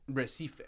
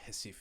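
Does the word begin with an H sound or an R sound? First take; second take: R sound; H sound. First: The word begins with an R sound. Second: The word begins with an H sound. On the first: The speaker calls it wrong. "or it's not even Recife" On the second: The speaker calls it right. "they pronounce the R's as like J's or, or H's, so it's like Recife"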